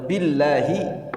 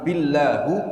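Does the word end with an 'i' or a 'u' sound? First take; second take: i; u. First: The word ends with an 'i' vowel. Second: The word ends with a 'u' vowel. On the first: The speaker calls it right. "demi Allah" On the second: The speaker calls it wrong. "ini salah dia, ya. Salah bacanya"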